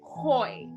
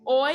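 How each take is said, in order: First: The word begins with an H sound. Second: The word begins directly with a vowel. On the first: The speaker calls it right. "have like a H sound" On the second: The speaker calls it wrong. "instead of just being oi"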